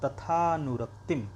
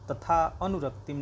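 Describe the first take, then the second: First: The words are joined, with no separate 'a' sound. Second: The words are split, with a separate 'a' sound. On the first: The speaker calls it right. "तथानुरक्तिम ऐसे बोलेंगे" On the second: The speaker calls it wrong. "तथा अनुरक्तिम नहीं बोलेंगे"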